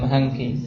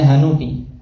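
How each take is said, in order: First: The n is followed directly by k, no vowel. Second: A short u vowel is heard between n and k. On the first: The vowel is silenced to fit the verse meter. "harus disukun di situ" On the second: This is the word's original form outside the verse. "Saya asalnya hanuki"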